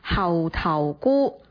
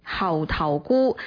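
First: The word is pronounced in Cantonese. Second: The same.

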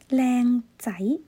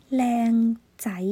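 The two takes are said the same way.

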